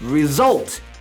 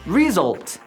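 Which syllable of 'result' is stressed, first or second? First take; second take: second; first. First: The stress is on the second syllable. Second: The stress is on the first syllable. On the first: The speaker calls it right. "이 단어의 강세는 뒤에 result 이렇게 있기 때문에" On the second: The speaker calls it wrong. "저는 그때 이 단어의 강세가 앞에 있다고 생각했어요"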